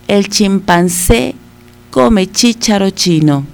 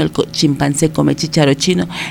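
First: It is said at a slow, careful pace. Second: It is said at a very fast pace.

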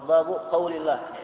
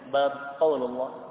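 First: The first word ends in a short u. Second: The first word ends without a vowel. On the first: "Babu, ba-nya di dhammah" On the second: "bab disukun, dimatikan"

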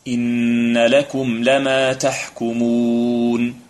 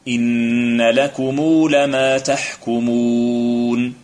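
First: The m of lakum ends bare, without a vowel. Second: The m of lakum is followed by long u. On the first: "الوجه الأول الإسكان" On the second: "ضمها وصلتها بواو لفظية"

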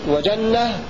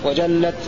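First: The word ends with an h sound. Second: The word ends with a t sound. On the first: "وجنة بالهاء" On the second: "ويقف غيرهم وجنة بالتاء"

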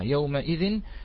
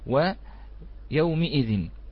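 First: The m is followed by an a vowel. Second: The m is followed by an i vowel. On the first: "تأتي بفتح الميم" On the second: "وتأتي بكسرها"

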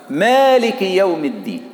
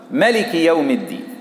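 First: The first vowel of the first word is long. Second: The first vowel of the first word is short.

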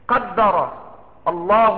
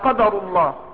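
First: The d sound is doubled, a verb. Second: The d sound is single, a noun. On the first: God has decreed it. "ضبطت على الوجهين" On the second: This is the decree of God. "أو قدر الله هذا قدر الله"

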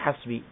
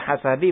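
First: The word has no vowel after the s. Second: The word has a vowel after the s. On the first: "boleh dibaca hasbi" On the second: "boleh dibaca hasabi"

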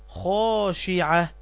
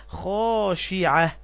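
No difference in how they are said.

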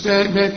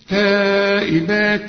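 First: The ending is held with a nasal hum. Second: The ending is clear, with no nasal hum. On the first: The speaker calls it wrong. "ما تقولش تائبات، لا ما تغنش" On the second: The speaker calls it right. "شوف تائبات عابدات"

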